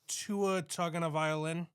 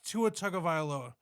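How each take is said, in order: First: The surname is pronounced in a distorted way. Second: The surname is pronounced in the standard way. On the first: The speaker calls it wrong. "I said it purposefully wrong" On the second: The speaker calls it right. "it's Tagovailoa"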